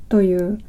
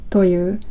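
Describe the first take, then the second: No difference in how they are said.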